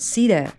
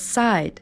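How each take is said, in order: First: The name is said the way Turkish people say it. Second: The name is said the way tourists say it. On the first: "here in Turkey we call it Cedar" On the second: "Many tourists pronounce the name of the resort as Side"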